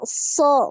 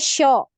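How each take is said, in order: First: The consonant sounds like s. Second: The consonant sounds like sh. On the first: The speaker calls it right. "Jadi so" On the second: The speaker calls it wrong. "Kalau tengah lidahnya yang naik jadinya sho"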